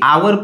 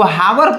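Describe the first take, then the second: First: The word starts with a vowel, no h. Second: The word starts with an audible h sound. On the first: The speaker calls it right. "आवर पढ़ेंगे, H जो है silent है" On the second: The speaker calls it wrong. "का आप इसको हावर पढ़ते हैं? ... नहीं"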